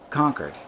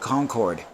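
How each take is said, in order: First: It is said the way the town is named. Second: It is said like the French plane's name. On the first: This names the town. The speaker calls it right. "This is Concord. That's the pronunciation" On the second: This names the supersonic passenger plane. The speaker calls it wrong. "it looks like Concorde"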